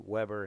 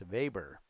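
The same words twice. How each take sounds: First: The name starts with a W sound. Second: The name starts with a V sound. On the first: This is the English way of saying the name. "we say Weber in English" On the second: This is the German way of saying the name. "in German they pronounce it Max Weber"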